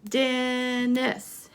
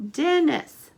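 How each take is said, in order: First: Dennis drawn out in two beats; measured Dennis for counting; syllable by syllable. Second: Said in the usual way. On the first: Shown as a demonstration. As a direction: hold the first syllable of Dennis. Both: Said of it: "let's count the syllables".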